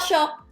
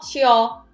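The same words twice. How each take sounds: First: It is said fast, merged into one syllable. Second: It is said with two distinct syllables. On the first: "It sounds like a one syllable" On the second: "It's two syllable"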